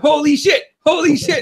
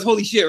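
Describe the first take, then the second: First: High-pitched, excited repeat; amazed exclamation. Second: Said in the usual way. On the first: Retold or imitated. Fan retells what the viewers were saying, excited amazement. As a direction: blurt it twice like thrilled spectators. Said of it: "We were going". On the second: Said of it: "W W E goes".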